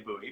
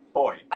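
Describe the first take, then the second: First: It is said the American way, like boo-ee. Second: It is said the non-American way, like boy.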